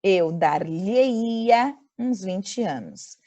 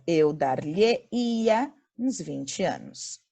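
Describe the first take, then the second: First: Very slow, stressing "dar-lhe-ia"; slow model sentence. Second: Slow recap reading. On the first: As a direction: read it out slowly for students. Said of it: "Então". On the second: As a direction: restate the answer calmly. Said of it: "a frase fica". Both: Shown as a demonstration.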